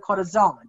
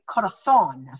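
First: The z is pronounced like an s. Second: The z is pronounced like a th. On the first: This is how it is said in Mexico. "in Mexico, they would say" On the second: This is how it is said in Spain. "Their Z's are pronounced like a th"

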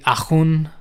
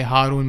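First: It is said in a French accent. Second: It is said the way his father says it.

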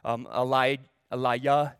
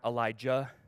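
First: The name is said without a J sound. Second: The name is said with a hard J sound. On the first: This is how the name sounds in Hebrew. "They don't have a hard J" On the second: This is how the name is usually said in English.

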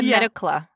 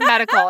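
First: The word ends with a 'cla' sound. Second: The word ends with a 'cal' sound. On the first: The speaker calls it wrong. "I said medicla 3 times instead of medical" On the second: The speaker calls it right. "instead of medical"

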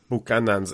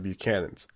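First: The name is given a Spanish-style pronunciation. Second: The name is given an English-style pronunciation. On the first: The speaker calls it wrong. "I absolutely hate it when I hear Buchanan's" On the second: The speaker calls it right. "instead of Buchanan's"

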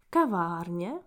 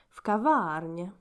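First: The stress is on the first syllable. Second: The stress is on the middle syllable.

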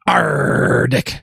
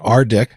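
First: The name is said with a growling pirate voice. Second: The name is said in a plain voice. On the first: "if we want to throw a pirate spin on it" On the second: "Dan suggested I pronounce it"

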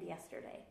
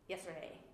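First: Every syllable is said clearly and fully. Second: The syllables are squashed together into fewer sounds. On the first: "she doesn't say Saturday and yesterday" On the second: "It's all like really like, smushed together and weird"

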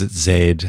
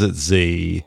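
First: The letter is said the Australian way. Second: The letter is said the American way.

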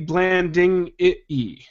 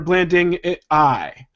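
First: The final vowel sounds like 'ee'. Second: The final vowel sounds like 'eye'. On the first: "if you end on the E" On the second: "or the I"

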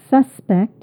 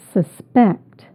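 First: The stress is on the first syllable. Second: The stress is on the second syllable.

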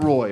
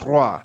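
First: The word sounds like English 'roy'. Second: The word sounds like French 'rwa'. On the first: The speaker calls it wrong. "It's not Roy" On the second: The speaker calls it right. "It's Roy"

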